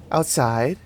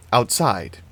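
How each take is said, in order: First: Said in the usual way. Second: Musing echo, falling at the end. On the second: A narrator's reading. Annie repeats the child's answer to herself, musing. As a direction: repeat it thoughtfully, letting it drop. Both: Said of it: "Annie mused".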